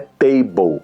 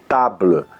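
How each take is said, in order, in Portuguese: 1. É pronunciada do jeito inglês. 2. É pronunciada do jeito francês. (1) "é table em, em inglês" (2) "que é mesa em, em, em francês"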